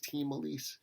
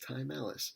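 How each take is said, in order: First: The name begins with a 'team' sound. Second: The name begins with a 'time' sound.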